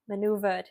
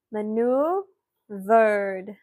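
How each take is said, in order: First: Said in the usual way. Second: MANEUVERED drawn out very slowly, in separated parts; slow breakdown. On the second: Shown as a demonstration. Teacher breaking the word down for spellers, very slowly. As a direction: stretch out each part of "Maneuvered".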